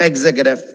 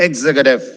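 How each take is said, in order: Both takes have the same delivery.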